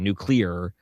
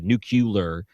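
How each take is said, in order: First: It is said the standard way: nuc-lee-ar. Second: It is said with an extra 'u' sound: nuc-u-lar. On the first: The speaker calls it right. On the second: The speaker calls it wrong.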